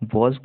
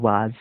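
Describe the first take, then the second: First: The vowel is a rounded 'aw' sound. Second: The vowel is an open 'ah' sound. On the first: The speaker calls it right. "वॉज को" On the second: The speaker calls it wrong. "वाज कई लोग पढ़ते हैं"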